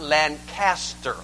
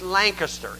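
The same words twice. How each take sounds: First: It uses the Ohio pronunciation. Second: It uses the local Pennsylvania pronunciation. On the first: The speaker is not from the Pennsylvania area. The speaker calls it wrong. "It's not Lancaster. That's Ohio" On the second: The speaker is from the Pennsylvania area. The speaker calls it right. "the Lancaster way to pronounce the name. It's Lancaster"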